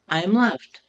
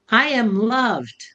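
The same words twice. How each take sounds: First: It is said in a flat, plain way. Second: It is said with joy and energy.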